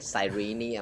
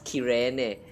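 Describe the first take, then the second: First: The name is said in its English pronunciation. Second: The name is said in its Japanese pronunciation. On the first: "the English version is actually like Cyrene" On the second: "the Japanese pronunciation says Kirene"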